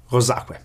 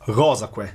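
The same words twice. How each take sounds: First: "rosaque" accented on SA; stress on middle syllable. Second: "rosaque" accented on RO; stress on first syllable. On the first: Lecturer showing the clitic accent shift, "rosaque" stressed on SA. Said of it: "instead it is accented as". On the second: Lecturer showing the expected but unused accent, "rosaque" stressed on RO. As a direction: hit RO in "rosaque", que unstressed. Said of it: "as we would expect". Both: Shown as a demonstration.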